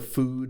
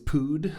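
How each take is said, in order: First: The word begins with an F sound. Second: The word begins with a P sound. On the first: "everything F in English" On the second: "if we say it with a Tagalog accent, becomes a P"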